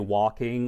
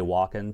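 First: The ending is said with a full -ing sound. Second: The ending is said with the g dropped. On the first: "But I don't say walking or talking" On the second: "I drop my G's when I talk"

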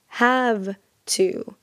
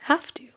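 First: Have ends with a clear V sound. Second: Have ends with an F-like sound. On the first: "instead of saying have to" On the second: "so we have this V sound in the word have, and it becomes like an F"

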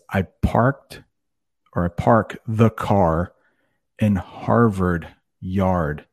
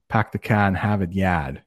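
First: The R sounds after vowels are pronounced. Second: The R sounds after vowels are dropped.

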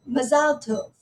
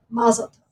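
First: It is said the Israeli Hebrew way. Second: It is said the American Jewish way.

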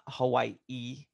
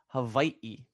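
First: The middle consonant is a W sound. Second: The middle consonant is a V sound. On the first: The speaker calls it wrong. "it's not Hawaii" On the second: The speaker calls it right. "That W is actually a V sound"

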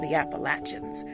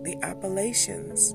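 First: The middle syllable is said the local way. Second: The middle syllable is said the academic way. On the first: This is the form used by people from there. "They say the Appalachians" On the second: This is the form used in academia. "academia likes to call it the Appalachians"

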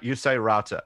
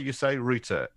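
First: It is said the American way. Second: It is said the British way. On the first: "In America, you say router" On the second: "In the UK, you say router"

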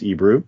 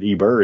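First: The name ends with a 'roo' sound. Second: The name ends with an 'er' sound. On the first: The speaker calls it right. "it's Ebru" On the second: The speaker calls it wrong. "I typoed her name. It's not Eber"

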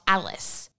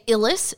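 First: The first vowel sounds like 'al'. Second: The first vowel sounds like 'el'. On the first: The speaker calls it wrong. "not Alice" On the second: The speaker calls it right. "make sure you say Illis"

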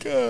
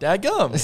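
First: It is said in a sad way. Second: It is said in a happy way.

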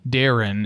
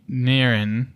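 First: The starting D sound is clearly pronounced. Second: The starting D sound is weak and unclear.

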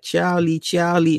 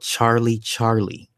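First: It is said in an Indonesian accent. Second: It is said in the speaker's plain accent.

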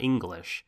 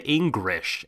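First: The middle consonant sounds like an L. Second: The middle consonant sounds like an R. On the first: This is the standard English form of the word. "and not English" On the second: This is how Japanese speakers say the word. "they say English"

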